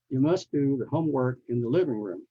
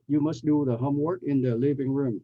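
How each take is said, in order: First: Small words are quick, low and run together. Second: Every small word is said fully and clearly. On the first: The speaker calls it right. "You can barely you can barely hear in the you know living room" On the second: The speaker calls it wrong. "I don't say"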